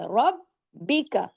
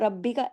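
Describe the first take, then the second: First: The doubled consonants are held firmly and clearly. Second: The doubled consonants are said loosely and lightly. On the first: The speaker calls it right. "अब यहाँ पे सख्ती से जोड़ना है" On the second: The speaker calls it wrong. "इसको ढीला ढाला रब्बी का ऐसे नहीं पढ़ना है"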